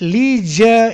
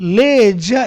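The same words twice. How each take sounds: First: It is said with an American pronunciation. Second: It is said with a British pronunciation. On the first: "in American" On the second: "in British"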